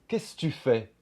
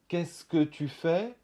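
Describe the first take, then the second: First: The second 'que' is dropped out. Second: The second 'que' is fully pronounced. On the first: "vous entendrez plutôt" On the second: "vous entendrez peut-être pas"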